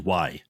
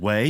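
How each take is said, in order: First: The name rhymes with 'my'. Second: The name rhymes with 'day'. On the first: This is the original Chinese pronunciation. The speaker calls it right. "It's actually Y in Chinese" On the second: This is how Americans read the spelling. The speaker calls it wrong. "American W A I, so everyone said Wei"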